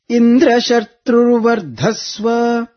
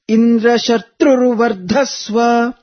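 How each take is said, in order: First: The syllable 'dra' is raised, 'dhva' is lowered. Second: The syllables 'tru' and 'dha' are raised in pitch. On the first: The son is one whom Indra kills. The speaker calls it wrong. "the Sayuktakshara Dra is up, but Vardhasva Dhva is down, Anudatta" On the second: Let the son grow up to kill Indra. The speaker calls it right. "the Tru, and Dha, both are chanted upwards, the Swarita intonation"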